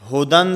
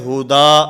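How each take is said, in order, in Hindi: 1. शब्द 'न' की ध्वनि से खत्म होता है। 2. शब्द लंबे 'आ' स्वर से खत्म होता है।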